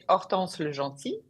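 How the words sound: The name is said with French pronunciation. "In French, you say"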